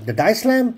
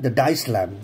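First: "lamb" lifted high and firm; rising correction on "The diced lamb"; stress on lamb. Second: Said in the usual way. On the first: Real, not acted. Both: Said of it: "The minced fucking lamb".

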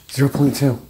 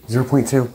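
Both takes have the same delivery.

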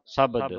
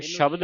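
First: ਸ਼ਬਦ said as "sabad", with plain s; s sound. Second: ਸ਼ਬਦ starting with sh; sh sound. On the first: Teacher modelling scripture reading, ਸ਼ਬਦ as "sabad". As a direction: start ਸ਼ਬਦ on s, not sh. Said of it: "ਸੱਸੇ ਦੀ ਆਵਾਜ਼ ਉਚਾਰਨ ਹੋਵੇ". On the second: Teacher showing what to avoid, ਸ਼ਬਦ with sh. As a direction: open ਸ਼ਬਦ on a hushing sh. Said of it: "ਇਹਨੂੰ ਸ਼ਬਦ ਨਹੀਂ ਪੜ੍ਹਨਾ". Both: Shown as a demonstration.

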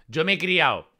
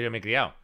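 First: Andalusian accent. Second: Said in the usual way. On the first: Shown as a demonstration. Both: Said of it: "Alguien que no es andaluz no dice".

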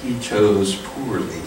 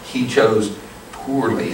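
First: Calm repeat. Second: Slow, calm, quiet verdict; calm, slow delivery. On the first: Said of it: "a time where you chose poorly". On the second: Knight calmly passing judgment on the Nazi, slow and quiet. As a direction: let it land slowly and calmly. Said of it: "He didn't choose wisely". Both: Shown as a demonstration.

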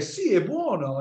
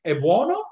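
First: High, sweeping answer on "Sì, è buono", falling at the end; affirming. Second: BUONO swept up high in a rising question. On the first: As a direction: confirm "Sì, è buono" with a high swoop that comes down. Acting out the answer. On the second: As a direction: ask "È buono?" with a high lift at the end. Acting out a question at table. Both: Acted.

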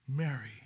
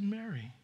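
First: Mary, lower and gentle, almost a caress; tender call. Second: Said in the usual way. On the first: Acted. Preacher savoring Jesus tenderly naming Mary. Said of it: "this always gets me". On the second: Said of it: "until he said".

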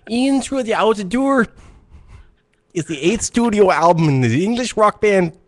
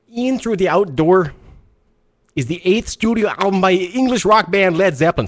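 First: Put-on Mexican Canadian accent. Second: Attempted Mexican Canadian accent. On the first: Host trying an accent on a radio show, awkward put-on accent. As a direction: read the album facts in a shaky put-on Mexican Canadian accent. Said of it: "This is me doing a, a Mexican Canadian". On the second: Host restarting his accent bit for listeners, stiff foreign-sounding accent. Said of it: "Sounds like [name] from Metallica".

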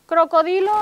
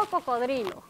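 First: "Crocodilo" with the r early, as in crocodile; English-influenced pronunciation. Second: "cocodrilo" with the r late, in -dri-; standard Spanish pronunciation. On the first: Teacher quizzing the class on English-influenced Spanish, "Crocodilo" with early r. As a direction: say "Crocodilo", cro- first, higher and louder. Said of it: "en inglés tenemos crocodile. ¿Y en español qué tenemos?". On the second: Teacher giving the class the Spanish form, "cocodrilo" with late r. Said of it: "¿Y en español qué tenemos?". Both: Shown as a demonstration.

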